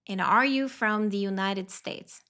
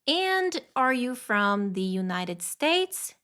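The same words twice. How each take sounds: First: The sentence is spoken quickly with linked words. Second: The sentence is spoken slowly and carefully.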